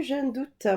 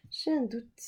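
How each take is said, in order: First: Said in the usual way. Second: Unvoiced whisper of doubt; mock secret whisper; whispered aside. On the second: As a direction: breathe it to herself, no voice.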